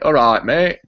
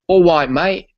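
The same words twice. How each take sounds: First: It is said in a Yorkshire accent. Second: It is said in a London accent. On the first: "where I'm from, which is Yorkshire, you'd say" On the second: "if you were from London, you would say"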